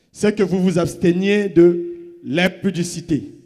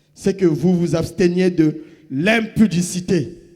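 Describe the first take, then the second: No difference in how they are said.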